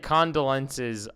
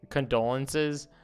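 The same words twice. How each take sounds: First: The word is pronounced the misread, reading-aloud way. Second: The word is pronounced the usual, everyday way. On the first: The speaker calls it wrong. "I say condolences when I read it" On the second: The speaker calls it right. "but I'm really saying condolences"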